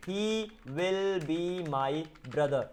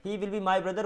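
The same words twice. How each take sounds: First: Very slow, each word held apart. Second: Said in the usual way. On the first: Shown as a demonstration. Teacher giving learners the English for a Hindi sentence, word by word. Teacher spells out the translation slowly.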